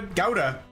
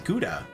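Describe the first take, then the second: First: The first syllable sounds like 'gow'. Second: The first syllable has the usual American sound. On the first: "Germans say it's uh" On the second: "everybody says Gouda, like everywhere in America"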